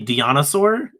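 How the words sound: The word is said in a put-on country-girl style. "it's literally Dinosaur"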